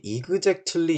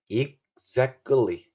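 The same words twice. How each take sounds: First: The ending is not said as a tense 'kkli'. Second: The ending is said as a tense 'kkli'. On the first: The speaker calls it wrong. "많은 분들이 exactly 이러시거든요. 아니에요" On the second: The speaker calls it right. "끌리. 보통 끌리라고 합니다"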